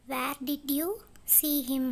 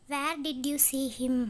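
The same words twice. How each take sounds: First: "Where did you" rising, a gap, then "see him"; pause after YOU. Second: Said in the usual way. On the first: Shown as a demonstration. English teacher repeats the question for learners, pausing after "you". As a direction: lift "you" and break before "see him".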